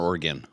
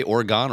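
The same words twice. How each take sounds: First: Oregon with an unstressed "uh" in the last syllable; Oregon ending in "-gun". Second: Oregon with an open "ah" in the last syllable; Oregon ending in "-gone". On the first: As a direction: say Oregon with a short, reduced "gun" at the end. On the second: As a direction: say Oregon with a full "gone" at the end. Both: Shown as a demonstration. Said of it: "did you say Oregon or Oregon?".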